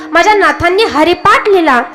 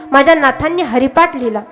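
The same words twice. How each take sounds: First: Haripath proclaimed with lifted pitch; emphatic repeat. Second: Said in the usual way. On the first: Real, not acted. Preacher tells devotees what his Nath wrote, emphatic repeat. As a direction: lift and stress Haripath proudly. Repeats after telling listeners to hear.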